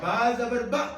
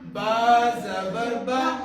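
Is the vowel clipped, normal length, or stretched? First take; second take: clipped; normal. First: The vowel is cut off abruptly. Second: The vowel has normal, even length. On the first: The speaker calls it wrong. "अगर इसी हरकत को हम झटका देंगे" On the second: The speaker calls it right. "मारूफ पढ़ना है।"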